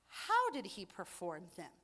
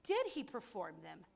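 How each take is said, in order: First: "How" hit first and strongest; stress on how. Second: "Did" stressed as the wrong question, lower. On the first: Preacher correcting the question, stress on "How". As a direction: punch "How" as the real question. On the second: Preacher showing the question they didn't ask, stress on "Did". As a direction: lean on "Did" as the question rejected. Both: Shown as a demonstration.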